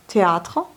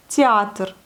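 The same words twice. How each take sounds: First: Said in the usual way. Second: Théâtre said as tyiatr; Russian yéi vowel. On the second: Shown as a demonstration. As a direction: soften the Thé of Théâtre toward tyi. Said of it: "entre yéi". (prononciation russe, entre yé et i)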